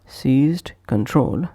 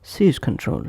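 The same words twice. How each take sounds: First: "Seized control" with the d sounded; full form. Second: "seize control" with the d of seized left out; linked, d dropped. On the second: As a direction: run z straight into c in "seize control". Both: Shown as a demonstration. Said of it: "is pronounced as".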